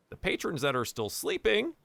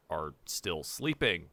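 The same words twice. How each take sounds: First: Said in the usual way. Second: "are still sleeping" said low and slow; dry deadpan repeat. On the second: Shown as a demonstration.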